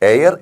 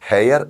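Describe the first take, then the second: First: The word begins directly with a vowel sound. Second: The word begins with an audible h sound. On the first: The speaker calls it right. "എച്ച് silent ആണ്" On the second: The speaker calls it wrong. "ഹെയർ എന്ന് വായിച്ചാൽ എ എന്ന് എഴുതേണ്ടി വരും"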